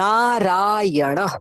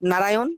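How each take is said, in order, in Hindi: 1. 'a' स्वर लंबे खींचे जाते हैं। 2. 'a' स्वर छोटे हैं, बंगाली ढंग से। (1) "নায়ে আকার আছে... টানতে হবে ওগুলোকে" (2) "বাংলায় বললে কি বলবে? নারায়ণ, না এটা নারায়ণ নয়"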